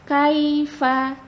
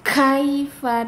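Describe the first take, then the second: First: The k has a light, relaxed burst of breath. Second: The k has a heavy, exaggerated burst of breath. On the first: The speaker calls it right. "dibacanya rileks saja lidahnya" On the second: The speaker calls it wrong. "tidak kaifa, tidak, jangan berlebihan hamesnya"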